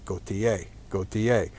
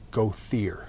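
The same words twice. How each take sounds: First: The name is said with a French pronunciation. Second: The name is said with a local American pronunciation. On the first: This is the original pronunciation in its source language. "Properly in French, it would be" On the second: This is how the family says it locally. "is how we pronounce it here"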